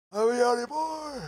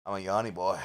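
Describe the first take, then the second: First: Goofy high-pitched yell; silly high shout. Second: Said in the usual way. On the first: Shown as a demonstration. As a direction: belt "yawny boy" way up high.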